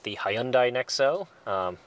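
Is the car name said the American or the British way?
British. The car name has a British-style pronunciation.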